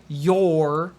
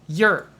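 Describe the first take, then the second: First: The word is said carefully and in full. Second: The word is said quickly and reduced. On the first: "you could say you're" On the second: "if you're speaking quickly, will actually sound like you're"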